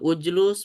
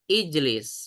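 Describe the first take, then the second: First: Both vowels are u. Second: Both vowels are i. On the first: The speaker calls it wrong. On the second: The speaker calls it right. "Jalasa ya jelisu ijlis"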